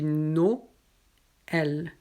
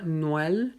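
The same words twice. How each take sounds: First: "Noël" split slowly into no-ël; correct Noël. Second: "Noël" run together as one syllable; wrong Noël. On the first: Teacher showing students the right "Noël". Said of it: "mais on dit Noël". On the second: Teacher showing the wrong reading of "Noël". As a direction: blend the vowels of "Noël" wrongly. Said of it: "On ne dit pas Noël". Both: Shown as a demonstration.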